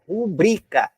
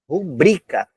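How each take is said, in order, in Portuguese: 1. A sílaba tônica é a segunda. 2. A sílaba tônica é a segunda.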